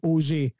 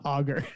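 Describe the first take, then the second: First: The name is pronounced the French way. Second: The name is pronounced the English way. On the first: The speaker calls it right. "the name is Auger" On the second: The speaker calls it wrong. "not Auger"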